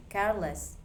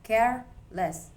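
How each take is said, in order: First: Said in the usual way. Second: Careless said slowly, care punched, less light; stress on CARE. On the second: Shown as a demonstration. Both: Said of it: "The stress stays on care".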